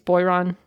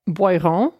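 First: The name is said with an English accent. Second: The name is said with a French accent.

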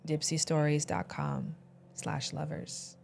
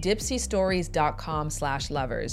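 First: It is said in a sexy voice. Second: It is said in a plain voice.

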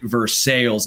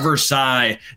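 First: Versailles is said with an Anglicized local pronunciation. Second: Versailles is said with the French pronunciation. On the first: This is how the town's name is said locally. The speaker calls it right. "you heard that right" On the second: This is how the famous French palace is said. The speaker calls it wrong. "Not Versailles, not like the treaty"

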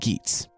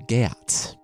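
First: Geats is said the usual modern way. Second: Geats is said the older Old English way. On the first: The speaker calls it wrong. "I've long suspected that I was mispronouncing Geats" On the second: The speaker calls it right. "in Old and Middle English, it would be closer to Geats"

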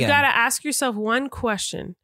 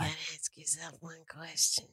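First: It is said in a plain voice. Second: It is said in a raspy voice.

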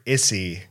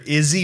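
First: The middle consonant is a hissing S sound. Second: The middle consonant is a buzzing Z sound. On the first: "with the S sound" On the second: "like a Z sound"

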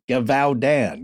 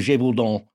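First: The name is said with an American pronunciation. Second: The name is said with a French pronunciation. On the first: "because that's how it looks like it's spelled" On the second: "in French, it's Le Bête du Gévaudan"

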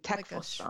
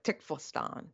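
First: The first vowel sounds like the e in tech. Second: The first vowel sounds like the i in tick. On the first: "But it should be an E" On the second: "I think I want to make that an I"

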